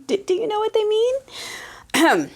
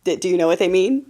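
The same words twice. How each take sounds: First: Higher, slow, drawn-out tease; slow teasing question. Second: Said in the usual way. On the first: Shown as a demonstration. Host teasing viewers with the obvious answer, slow and higher. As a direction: stretch it out knowingly.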